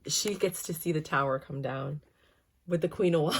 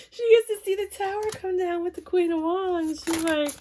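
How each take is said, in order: First: Said in the usual way. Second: High and louder, still laughing; real laughter breaking through the words. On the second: Real, not acted. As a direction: push the line out through giggles. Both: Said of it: "guys, I can't".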